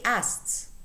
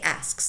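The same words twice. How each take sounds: First: The k sound is dropped. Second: The k sound is clearly pronounced. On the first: "native speakers normally say asks, asks, and the k disappears" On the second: "But you could say asks, that's also correct"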